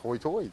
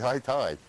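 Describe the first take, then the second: First: The vowels are rounded, like 'hoi toy'. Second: The vowels are plain, like standard 'high tide'.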